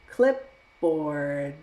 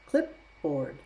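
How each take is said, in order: First: The word is said slowly. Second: The word is said at normal speed.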